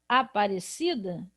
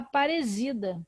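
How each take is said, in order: First: The middle consonant is a hissing s sound. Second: The middle consonant is a buzzing z sound. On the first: The speaker calls it right. "Ao invés de eu falar Aparecida" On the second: The speaker calls it wrong. "Olha o problema. ... eu vou falar Aparecida"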